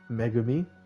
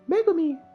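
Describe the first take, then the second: First: It is said in a normal voice. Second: It is said in a character voice.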